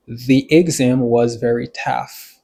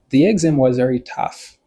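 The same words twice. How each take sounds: First: Slow, deliberate example sentence; slow model. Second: Said in the usual way. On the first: Shown as a demonstration. Teacher translating an example for learners, slow and deliberate. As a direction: spell it out slowly for learners.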